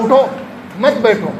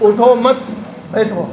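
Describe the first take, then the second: First: اٹھو alone, pause, then "مت بیٹھو" joined and falling; pause after اٹھو. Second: "اٹھو مت", pause, then بیٹھو set apart and falling; pause after مت. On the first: Preacher shows the second reader's opposite sense, pausing after اٹھو. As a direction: break right after اٹھو, run مت into بیٹھو. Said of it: "دوسرا آئے". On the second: Preacher shows one reader's sense, pausing after مت. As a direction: break the phrase after مت, drop on بیٹھو. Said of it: "ایک آدمی اسے پڑھے". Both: Shown as a demonstration.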